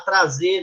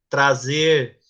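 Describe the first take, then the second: First: The final R is dropped. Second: The final R is clearly pronounced. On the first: This is casual everyday speech. The speaker calls it wrong. "a linguagem coloquial do dia a dia ... Não pode" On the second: This is formal, educated speech. The speaker calls it right. "Não omita S e R. ... fale"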